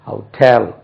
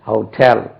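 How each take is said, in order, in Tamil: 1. அழுத்தம் இரண்டாம் அசையில் உள்ளது. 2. அழுத்தம் இரண்டாம் அசையில் உள்ளது.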